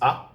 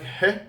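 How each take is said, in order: First: The sound starts straight on the vowel. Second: The sound starts with a clear h. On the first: The speaker calls it wrong. "too lazy to pronounce it, so they just pronounce it as A" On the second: The speaker calls it right. "supposed to be pronounced like He. Okay, this is the correct pronunciation"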